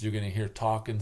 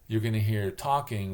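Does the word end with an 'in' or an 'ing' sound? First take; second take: in; ing. First: The ending is pronounced as a plain 'n' sound. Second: The ending is pronounced with a full 'ng' sound. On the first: This is how people in the upper Midwest say it. "It's an in, in, it's not ing" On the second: This is how people west of the Rockies say it. "spelling pronunciation... west of the Rocky Mountains"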